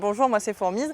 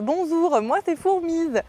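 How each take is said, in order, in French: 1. Les s sont prononcés normalement. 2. Les s sont prononcés avec un zézaiement. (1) "je vous le fais avec ma voix à moi" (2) "ça avait donné quelque chose de l'ordre de"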